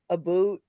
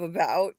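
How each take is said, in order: First: The vowel in about has a Canadian sound. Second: The vowel in about has an American sound. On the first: "They say sorry and about" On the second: "instead of about"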